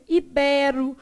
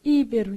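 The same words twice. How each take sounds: First: IBERO stressed on BE, open E; firm iBÉro; stress on middle syllable. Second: IBERO stressed on the first syllable, Íbero; wrong stress. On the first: Shown as a demonstration. Teacher models the correct reading, middle stress. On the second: Retold or imitated. Teacher shows how students would misread, first-syllable stress. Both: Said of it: "senão você vai lá e lê como?".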